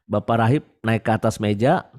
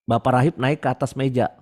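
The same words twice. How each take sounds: The two takes are said the same way.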